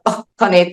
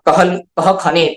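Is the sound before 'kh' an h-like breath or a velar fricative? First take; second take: velar fricative; h breath. First: A back-of-mouth velar fricative comes before the kh. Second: A plain h-like breath comes before the kh. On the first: "ऐसा जीवामूलीय भी होता है" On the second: "विसर्ग भी होता है"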